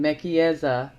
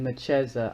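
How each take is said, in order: First: Mekieza with a hard k, MEK-ee-EZ-a; book's pronunciation. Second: Mecheza with a ch, muh-CHEZ-a; her own pronunciation. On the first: Giving viewers the name as written, Mekieza with a hard k. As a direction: give Mekieza four beats, k in the middle. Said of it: "or I've been saying Mecheza". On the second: Telling viewers her usual version, Mecheza with a ch sound. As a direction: say Mecheza in three beats, stressing CHEZ. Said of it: "I've been saying". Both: Shown as a demonstration.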